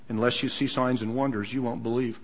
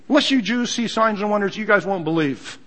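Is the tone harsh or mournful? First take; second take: mournful; harsh. First: It is said in a mournful tone. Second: It is said in a harsh tone.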